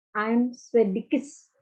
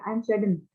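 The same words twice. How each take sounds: First: Drawn-out, awkward "Swedish"; stretched-out "Swedish" that sits badly in the mouth; awkward example. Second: "Sweden" said smoothly with N ending; easy, natural "Sweden". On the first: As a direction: say "Swedish" very slowly with a clumsy extra syllable at the end. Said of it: "Misalnya enak nggak dibaca?". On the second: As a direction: say "Sweden" briskly, closing on a plain N. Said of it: "Coba kalau pakai N-nya aja". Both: Shown as a demonstration.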